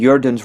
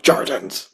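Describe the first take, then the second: First: The word begins with a Y sound. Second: The word begins with a hard J sound. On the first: "pronounce the J's as like kind of like a Y sound" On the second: "it's pronounced with a hard J"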